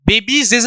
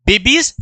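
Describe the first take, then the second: First: बेबीज with an added "-zes" hiss at the end; extra hissing ending. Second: Said in the usual way. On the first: Shown as a demonstration. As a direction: say बेबीज as "babies-es", doubling the sibilant. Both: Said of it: "वो hissing sound आ जाएगी".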